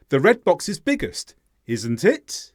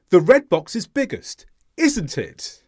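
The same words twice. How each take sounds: First: "isn't it" rising on "it", unsure; really ask, lifting "it" at the end; stress on IT. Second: "isn't" stressed high, then falling through "it". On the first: Teacher asks listener for the answer, unsure, stress on "it" rising. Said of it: "It being the stressed word". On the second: Teacher shows learners the obvious-answer version, stress on "isn't", falling. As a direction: expect agreement, tag falling from a high "isn't". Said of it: "is the stressed word". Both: Shown as a demonstration.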